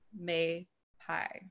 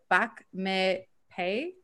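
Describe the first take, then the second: First: The last syllable rhymes with 'my'. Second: The last syllable rhymes with 'day'. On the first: The speaker calls it right. "so pie instead of pay" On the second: The speaker calls it wrong. "so pie instead of pay"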